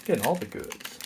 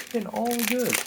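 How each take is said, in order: First: Said in the usual way. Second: Lifted high, softly gloating "goods"; playful high-pitched crowing; high sing-song. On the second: Real, not acted. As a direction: repeat it in a high, pleased lilt. Repeats the phrase in higher voice.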